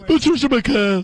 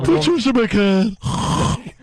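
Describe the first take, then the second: First: Mock ad sign-off. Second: Slower, stretched-out Patricia McCann; more relaxed ad sign-off. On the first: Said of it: "read how she relaxes down". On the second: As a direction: lean harder into the lazy ad drawl. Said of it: "Little more, little more". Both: Shown as a demonstration.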